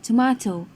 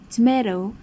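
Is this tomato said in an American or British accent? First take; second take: British; American. First: It is said in a British accent. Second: It is said in an American accent. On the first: "the British English would say" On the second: "American English would say"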